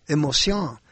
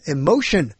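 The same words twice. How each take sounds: First: Emotion said the French way, "ay-mo-SYON"; French pronunciation of emotion. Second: Said in the usual way. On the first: Shown as a demonstration. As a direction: turn the "tion" of emotion into "syon". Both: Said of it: "put different emphasis".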